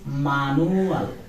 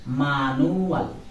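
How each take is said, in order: No difference in how they are said.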